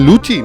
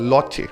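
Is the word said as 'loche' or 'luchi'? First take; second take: luchi; loche. First: The word is said as 'luchi'. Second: The word is said as 'loche'. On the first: The speaker calls it right. "লুচি বলতে পারে না" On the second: The speaker calls it wrong.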